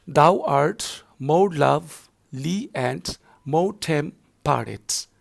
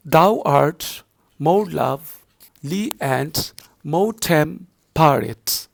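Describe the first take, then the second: First: Slow, stretched reading of the verse line; repeated recitation. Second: Slow, stretched reading of the verse; poem recitation. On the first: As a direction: read it again slowly, word by word. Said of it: "second line I'm going to repeat". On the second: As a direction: draw each word out evenly. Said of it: "second line is like this". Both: Shown as a demonstration.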